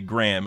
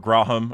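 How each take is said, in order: First: It is said as one short syllable, like gram. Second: It is drawn out into two syllables. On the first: The speaker calls it right. "It's almost like it's G R A M" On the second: The speaker calls it wrong. "You don't actually say like Graham"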